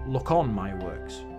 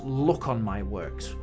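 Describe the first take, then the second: First: The stress falls on 'on' and 'works'. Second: The strongest stress falls on 'look'. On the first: "as opposed to" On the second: "He puts the stress syllable at the beginning of the line"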